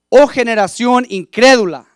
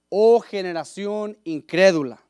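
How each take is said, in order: First: It sounds exasperated, though not angry. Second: It is read in a plain, neutral tone.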